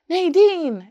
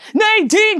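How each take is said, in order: First: It is said softly and gently. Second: It is said loudly, like yelling.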